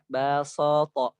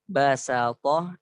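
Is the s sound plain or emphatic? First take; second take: emphatic; plain. First: The s sound is thick and emphatic. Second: The s sound is plain and light. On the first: "Bukan sin lagi tapi sod" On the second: "ada yang baca basato"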